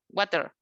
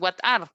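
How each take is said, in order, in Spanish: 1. Las dos palabras se unen en una sola palabra, 'water'. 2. Las dos palabras se dicen por separado y completas. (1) "usan el water" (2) "que es what are"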